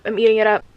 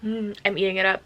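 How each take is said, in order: First: Louder gush. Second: Said in the usual way. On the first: Real, not acted.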